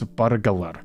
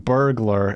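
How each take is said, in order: First: It is said Scottish-style with a rolled R. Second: It is said without a rolled R.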